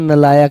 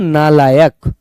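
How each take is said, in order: First: The first vowel is short. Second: The first vowel is long. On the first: The speaker calls it wrong. "नलायक नहीं होता" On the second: The speaker calls it right. "शब्द होता है नालायक"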